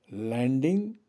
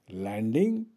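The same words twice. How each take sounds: The two takes are said the same way.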